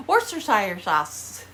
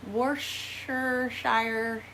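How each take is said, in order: First: Worcestershire said firmly as woor-sta-sheer, louder; confident retry. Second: Worcestershire said slowly, syllable by syllable; careful slow try. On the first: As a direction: nail Worcestershire with a firm fall. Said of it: "How's that?". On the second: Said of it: "I hate this name". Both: Shown as a demonstration.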